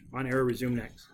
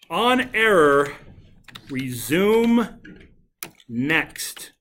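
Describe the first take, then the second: First: It is said at normal volume. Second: It is yelled loudly.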